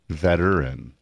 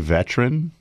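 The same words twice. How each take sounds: First: The word is said with three full syllables. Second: The word is said with only two syllables. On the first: "You like the good in there" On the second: "a lot of people do say veteran"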